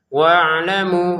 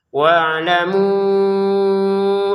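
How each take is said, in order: First: The final vowel is held for two counts. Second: The final vowel is held for five counts. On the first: "mu-nya dua harokat" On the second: "mau digabungin hamzah panjangnya lima harokat"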